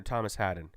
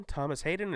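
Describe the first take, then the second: First: Haden with a short "a" as in "had"; saying Haden. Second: Hayden with a long "ay" as in "hay"; saying Hayden. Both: Shown as a demonstration. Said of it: "Is it Hayden?".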